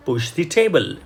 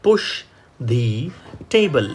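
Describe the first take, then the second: First: Said in the usual way. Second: Word by word, with pauses; slow model reading. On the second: Shown as a demonstration. Teacher reading slowly, word by word, for students. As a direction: read it slowly for learners. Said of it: "વાક્ય થશે".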